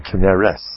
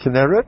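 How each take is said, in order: First: The name is said with an Ashkenazi pronunciation. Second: The name is said with a non-Ashkenazi pronunciation. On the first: This is how the speaker's own community says it. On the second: This is how other people say it. "You say Kinneret? That's fine"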